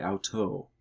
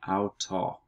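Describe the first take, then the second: First: "auto" ending in a long oh; corrected "auto". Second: "auto" ending in an open aw sound; mispronounced "auto". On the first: Teacher correcting a Greek slip, "auto" ending in long oh. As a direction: say "auto" as ow-toe. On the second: Teacher slipping on a Greek word, "auto" ending in aw. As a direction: say "auto" as ow-taw. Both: Shown as a demonstration. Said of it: "oh, sorry, auto".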